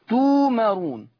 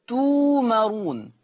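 Both takes have the same delivery.

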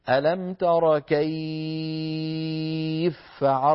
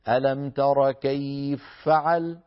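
First: The vowel in kayf is held for six beats. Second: The vowel in kayf is held for two beats. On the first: "أو نمد ستا" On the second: "هي حركتين"

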